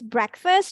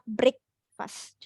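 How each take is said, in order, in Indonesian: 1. Vokal pertama adalah bunyi e pendek. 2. Vokal pertama bukan e pendek. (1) "Pakai E, breakfast ya. So it's breakfast" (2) "not breakfast"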